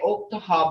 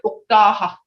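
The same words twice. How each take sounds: First: The town name is said with an English sound. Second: The town name is said with a Muskogee sound. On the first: This is how outsiders say the name. "The Stiheki say Oktaha" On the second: This is how the speaker's own people say the name. "but we call it Oktaha"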